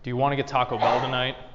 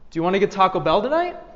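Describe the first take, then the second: First: The voice ends on a lower note. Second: The voice dips, then ends on a higher note. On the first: The speaker sounds annoyed and fed up. The speaker calls it wrong. "Ending on a lower note" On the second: It is a friendly, genuine question. The speaker calls it right. "you'll end on a higher note"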